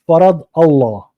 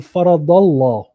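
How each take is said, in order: First: The two words are said apart, each distinct. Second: The two words run together without a break. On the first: This is how it was read in the past. "They would like say it as it is" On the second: This is how it is read nowadays. "So we're connecting it"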